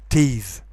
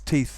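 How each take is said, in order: First: The final th sound is voiced. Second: The final th sound is voiceless. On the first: The speaker calls it wrong. "you shouldn't pronounce it teeth" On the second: The speaker calls it right. "It's teeth that bite, even though that begins with a voiced consonant"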